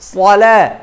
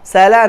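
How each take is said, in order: First: The first 's' is heavy and thick. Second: The first 's' is light and thin. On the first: The speaker calls it right. "সদটা মোটা হরফ" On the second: The speaker calls it wrong. "সালা নয়"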